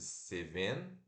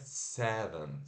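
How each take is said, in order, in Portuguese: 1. Ela é lida com os sons das letras do português. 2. Ela é falada com a pronúncia do inglês. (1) "como se fosse seven" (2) "mas se pronuncia seven"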